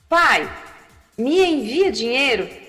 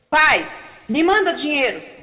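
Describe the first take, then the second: First: It sounds soft and polite. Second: It sounds rude and demanding.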